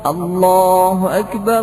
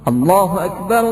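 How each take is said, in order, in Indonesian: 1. Vokal pada Allah dibaca panjang. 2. Vokal pada Allah dipendekkan. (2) "memendekkan lafaz Allah"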